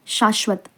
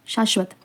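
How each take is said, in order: Both takes have the same delivery.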